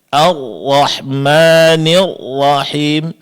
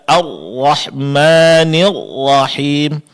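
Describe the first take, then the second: No difference in how they are said.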